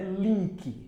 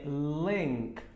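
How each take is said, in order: First: The vowel is a long 'ee' sound. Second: The vowel is a short 'i' sound. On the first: The speaker calls it wrong. "Link não é link" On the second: The speaker calls it right. "é link"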